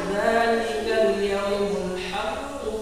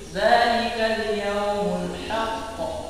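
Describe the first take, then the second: First: Haqqu runs straight on into the next words. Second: It stops on haqq with a bounced final q. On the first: "Kalau dibaca dibaca terus sih" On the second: "kalau misalkan berhenti ki di situ"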